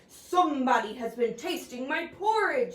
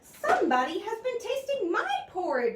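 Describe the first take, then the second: First: It is said in a big, deep bear voice. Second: It is said in a middle-sized, medium voice.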